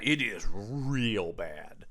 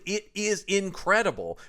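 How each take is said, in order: First: Real bad dropped low and slow, dragged out in disgust; slow heavy contrast. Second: Incredible lifted high and bright, stretched in delight; emphatic praise. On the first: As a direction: sink the pitch and slow right down on real bad. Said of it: "But when it is bad". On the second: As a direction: raise the voice on incredible like you're dazzled. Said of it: "It's like, when it is good". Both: Shown as a demonstration.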